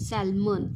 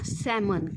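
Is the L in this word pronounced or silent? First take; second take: pronounced; silent. First: The L sound is pronounced in the middle. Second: The L sound is silent in the middle. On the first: The speaker calls it wrong. "हा काय आहे रे चुकीचा उच्चार आहे" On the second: The speaker calls it right. "जो काही correct उच्चार आहे"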